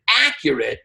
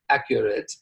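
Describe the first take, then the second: First: The stress is on the first syllable. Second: The stress is on the second syllable. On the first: The speaker calls it right. "where I just said accurate" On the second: The speaker calls it wrong. "not accurate"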